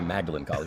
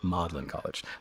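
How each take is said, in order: First: The name is said in an American accent. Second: The name is said in a British accent. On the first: "We Americans would say" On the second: "You got to say it like you're a Brit"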